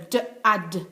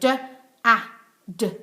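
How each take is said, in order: First: The sounds are said more quickly. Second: The sounds are said slowly and separately.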